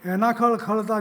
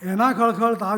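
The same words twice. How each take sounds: First: The syllables run long, short, long, long, short. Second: The syllables run long, short, long, long. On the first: "બીજા પ્રમાણે જો કરીએ પઠન" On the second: "પહેલું છંદ વિધાન"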